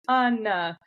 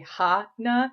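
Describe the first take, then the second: First: The name begins with no h sound. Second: The name begins with an h sound. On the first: "It's always Anna" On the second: "none of them say ha-na"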